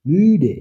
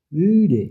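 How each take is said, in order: First: Müde with a high, loud, rounded ü; German ü. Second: Müde repeated with a high, rounded ü; German ü again. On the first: Teacher modelling müde for the class, rounded ü. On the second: Teacher repeating müde for students, rounded ü. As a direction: say müde once more, lips rounded. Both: Shown as a demonstration. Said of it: "ঠোঁট গোল করে".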